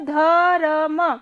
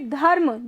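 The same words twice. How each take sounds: First: The r is said slowly as its own syllable. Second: The r is said quickly, blended into the cluster. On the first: The speaker calls it wrong. "अगर र को अलग से लिखेंगे तो धर्म, लेकिन धर्म गलत वर्ड हो जाएगा उच्चारण में" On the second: The speaker calls it right. "जल्दी से पढ़ेंगे"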